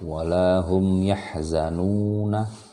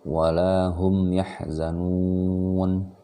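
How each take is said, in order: First: The last word ends with a vowel after n. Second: The last word ends on a bare n. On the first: The reading carries on past this point. The speaker calls it wrong. "kalau mau berhenti di sini tidak lagi dibaca" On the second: The reading stops here. The speaker calls it right. "fathahnya hilang dan dia dibaca nun saja"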